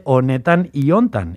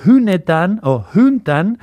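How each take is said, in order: First: Said in the usual way. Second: Hunetan and huntan with breathed h and u. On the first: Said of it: "en vez de". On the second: Shown as a demonstration. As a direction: slowly show the u in hunetan and huntan. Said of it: "las O pasan a ser U".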